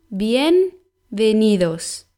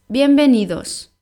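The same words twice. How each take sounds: First: The word is said slowly. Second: The word is said at normal speed.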